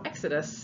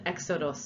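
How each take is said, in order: First: The word is said in its modern English form. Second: The word is said in its original Greek form. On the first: This is the word used today. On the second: This is the term from the ancient plays.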